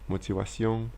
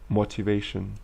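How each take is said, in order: First: It is said with a French pronunciation. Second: It is said with an English pronunciation. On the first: "So you just make the French accent" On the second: "there are words in English that end with sion"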